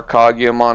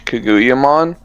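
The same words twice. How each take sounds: First: Kaguyamon said "KAH-gee-uh-mon"; alternative pronunciation. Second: Kaguyamon said "kuh-GOO-uh-mon"; first pronunciation attempt. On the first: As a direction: say Kaguyamon with "kah" first, then a hard "gee". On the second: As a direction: say Kaguyamon with an "oo" in the second syllable. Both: Real, not acted. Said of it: "however you pronounce it".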